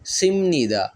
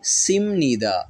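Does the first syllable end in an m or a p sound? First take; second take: m; m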